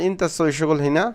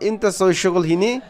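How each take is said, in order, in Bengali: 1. বাক্যটি সাধারণভাবে, অতিরিক্ত জোর ছাড়া বলা হয়েছে। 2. বাক্যটি অতিরিক্ত জোর দিয়ে বলা হয়েছে। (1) "সাধারণভাবে বললে আমরা বলবো" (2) "প্রশ্ন আকারে হলে আমরা একটু জোর দিয়ে বলবো"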